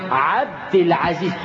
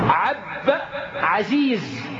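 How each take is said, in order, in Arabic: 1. يُنطق صوت الدال في 'abd'. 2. يُحذف صوت الدال في 'abd'.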